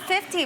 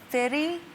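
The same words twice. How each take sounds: First: The middle consonant is a clear T sound. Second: The middle consonant sounds like a D. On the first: "I call him fifty" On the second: "with the two D's"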